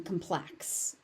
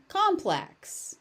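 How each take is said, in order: First: "complex" as com-PLEX; weak first vowel in "complex", stress on PLEX; stress on second syllable. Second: "complex" as COM-plex; full open vowel and punch on COM in "complex"; stress on first syllable. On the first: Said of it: "So as an adverb". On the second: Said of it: "But as a noun". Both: Shown as a demonstration.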